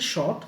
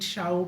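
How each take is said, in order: First: The vowel sounds like 'aw'. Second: The vowel sounds like 'ow'. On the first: The speaker calls it right. "But এটা উচ্চারণ হচ্ছে শর্ট" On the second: The speaker calls it wrong. "অনেক সময় শাইট শাউট অনেক কিছুই হইতে পারে"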